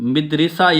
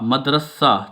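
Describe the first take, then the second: First: The first vowel is i, the second is i. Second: The first vowel is a, the second is a. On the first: The speaker calls it wrong. "मीम जेर है मिदरिसा ये गलत है" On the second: The speaker calls it right. "मीम जबर दल मद रे जबर रा सीन जबर हे सा"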